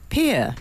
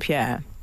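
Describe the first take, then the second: First: The name is said to rhyme with beer. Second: The name is said the usual French way.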